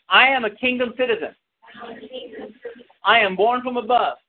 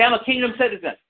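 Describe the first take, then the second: First: I lifted and stressed, each word said fuller; repeat with stress on I. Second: Said in the usual way. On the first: Shown as a demonstration. Preacher asking congregation to repeat it, firmer. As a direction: say it again, hitting I. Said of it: "Everyone say it again".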